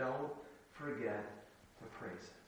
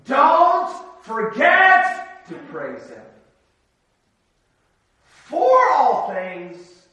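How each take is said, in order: First: Much softer and lower, gently trailing; hushed gentle repeat; soft reminder. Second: Higher, louder and very slow, each word hammered; booming slow pulpit appeal; emphatic exhortation. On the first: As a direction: close the thought tenderly to the hearers. Quiet repeat of key line. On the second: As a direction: drive the point home to the congregation. Sermon climax, key exhortation. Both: Real, not acted.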